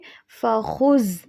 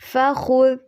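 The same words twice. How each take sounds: First: The final consonant is a plain 'z' sound. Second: The final consonant is a 'th' sound as in 'this'. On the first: The speaker calls it wrong. "ऐसे ज़ा नहीं पढ़ना" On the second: The speaker calls it right. "बल्कि फ़ख़ुज़ ज़ाल है"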